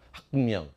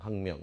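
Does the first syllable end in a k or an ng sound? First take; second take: k; ng. First: The first syllable ends in a closed k stop. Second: The first syllable ends in a nasal ng sound. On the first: The speaker calls it wrong. "여기 딱 닫아야 돼. 학, 그리고 열어야 돼. 명" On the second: The speaker calls it right. "비음으로 바꾸는 거야. 그래서 이걸 뭐로 발음하니?"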